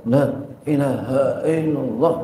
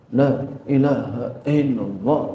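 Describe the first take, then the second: The two takes are said the same way.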